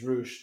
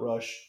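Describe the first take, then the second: First: The vowel is a long 'oo' sound. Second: The vowel is a short 'uh' sound. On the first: The speaker calls it right. "It's Roosh" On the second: The speaker calls it wrong. "not Rush"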